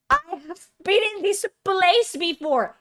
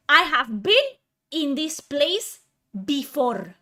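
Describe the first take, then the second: First: High, loud agitated outburst; exasperated meltdown, pitched up; ranting breakdown. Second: Broken up by heavy pauses, BEEN hit loud; deliberate, exasperated delivery falling on BEFORE; emphatic breakdown. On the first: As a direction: burst out in one raised, frantic run. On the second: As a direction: slowly space out I HAVE BEEN, IN THIS PLACE, BEFORE. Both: Real, not acted. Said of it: "I'm having a fucking mental breakdown".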